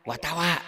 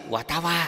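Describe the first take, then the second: Both takes have the same delivery.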